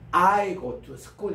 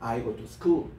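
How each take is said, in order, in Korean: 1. 'I go'는 강하게 말해요. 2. 'I go'는 약하게 말하고, 'school'에 강세가 있어요. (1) "미국 사람들이 금방 못 알아들어요. 이게 사투리처럼 들립니다" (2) "I go는 아주 가볍게 발음해"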